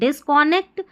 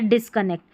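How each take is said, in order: First: The second syllable has a full 'o' vowel. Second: The second syllable has a short 'uh' vowel. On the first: The speaker calls it wrong. "कौन" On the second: The speaker calls it right. "तो डिसकनेक्ट सही है उच्चारण।"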